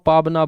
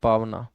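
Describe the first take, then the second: First: The middle consonant is a b sound. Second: The middle consonant is a v sound. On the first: This is how the speaker personally says it. "मैं इसको पाबना बोलता हूँ" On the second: This is probably the standard form. "बाकी है तो शायद ये पावना"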